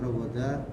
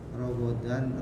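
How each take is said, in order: First: The word ends with a plain 'a' sound. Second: The word ends with an 'an' sound. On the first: "fatatain diganti fathah karena wakof"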